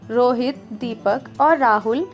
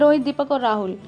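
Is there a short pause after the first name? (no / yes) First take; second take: yes; no. First: A slight pause follows the first name. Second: The names run together without a pause. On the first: The speaker calls it right. "हल्का सा ठहराव लाना है" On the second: The speaker calls it wrong. "बस आप इस तरह नहीं पढ़ेंगे"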